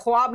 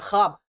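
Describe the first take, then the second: First: ख्वाब with the w sounded, "khwaab"; wrong spelling pronunciation. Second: ख्वाब said as "khaab"; ख्वाब with kh straight into long aa; silent w. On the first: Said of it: "ख्वाब नहीं होता है". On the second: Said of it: "ख्वाब होता है". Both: Shown as a demonstration.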